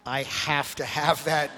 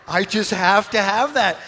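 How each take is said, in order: First: Drawn-out, wistful mock plea; slow, drawn-out longing. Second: Higher and much louder mock plea; hammed-up craving. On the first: Pastor retelling how he eyed Kev's hat, slow and wistful. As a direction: stretch out every word of "I have to have that" slowly. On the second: Pastor retelling how he begged Kev for the hat, hammed-up and loud. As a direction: belt out the craving like a kid begging for a toy. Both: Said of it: "and I'm like".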